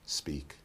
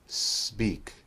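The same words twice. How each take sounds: First: The S sound is short and ordinary. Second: The S sound is drawn out and exaggerated. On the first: "the second time we'll make a normal S" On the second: "The first time we'll exaggerate the S"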